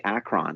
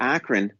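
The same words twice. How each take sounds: First: "Akron" with a full "ron" at the end; mispronounced Akron. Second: Said in the usual way. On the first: Shown as a demonstration. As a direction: say "Akron" as AK-RAHN, the outsider's way. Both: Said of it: "took me three days to not say Akron".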